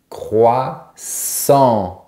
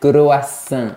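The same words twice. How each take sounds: First: It is said with a French nasal ending. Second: It is said with a foreign, non-French ending. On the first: The speaker calls it right. "on a croix et sur la fin, on a ... la syllabe en" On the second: The speaker calls it wrong. "Ils disent croissant"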